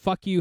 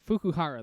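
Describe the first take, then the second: First: The name is split into separate English words. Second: The name is said smoothly as one word. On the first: It is a crude joke on the name. The speaker calls it wrong. "I really want to pronounce it this way" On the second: It is the proper name. The speaker calls it right. "That's definitely the way you should pronounce that"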